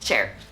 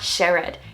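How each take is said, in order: First: The word is said with one syllable. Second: The word is said with two syllables. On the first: The speaker calls it right. "One syllable" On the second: The speaker calls it wrong. "it's not shared"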